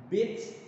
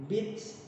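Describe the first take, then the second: Both takes have the same delivery.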